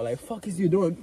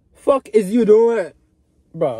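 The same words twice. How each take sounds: First: Said in the usual way. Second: Slow, loud, disbelieving; louder, slower challenge to the viewer; scolding. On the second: Acted. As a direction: drag it out like a scolding.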